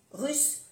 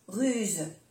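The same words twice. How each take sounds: First: "russe" pitched high, ending in an unvoiced s; double S. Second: "ruse" falling, ending in a voiced z; soft Z. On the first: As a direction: lift "russe" and end on a hiss. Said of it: "pronunciar bien las dos S". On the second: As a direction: say "ruse" with a final buzz. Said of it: "se pronuncia como una Z suave". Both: Shown as a demonstration.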